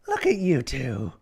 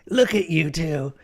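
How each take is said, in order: First: It is not in Emerald's character voice. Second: It is in Emerald's character voice.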